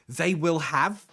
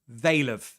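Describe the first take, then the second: First: Every word is said fully and separately. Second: The first two words are contracted together.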